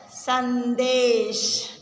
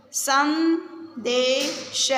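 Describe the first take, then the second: First: संदेश said slowly again with a falling close; slow falling repeat. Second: संदेश drawn out very slowly with a rising end; slow syllable reading. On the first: Teacher repeats संदेश for children, slowly. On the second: Teacher sounds out संदेश for the class, very slowly. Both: Shown as a demonstration. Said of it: "शब्दों को पढ़ेंगे".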